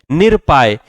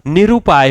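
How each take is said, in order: First: निरुपाय squeezed to "nir-paay", losing the u; wrong pronunciation. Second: निरुपाय as "ni-ru-paay", with a clear u; correct pronunciation. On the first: Teacher reading the faulty निरुपाय, mispronounced as nir-paay. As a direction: say निरुपाय without its middle vowel. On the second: Teacher giving students the right निरुपाय, correctly pronounced. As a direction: sound the "ru" in निरुपाय. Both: Shown as a demonstration. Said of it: "निरुपाय होता है".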